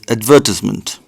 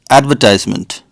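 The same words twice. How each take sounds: First: It is said in a British accent. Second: It is said in an American accent. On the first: "British people call this advertisement" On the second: "Americans call this advertisement"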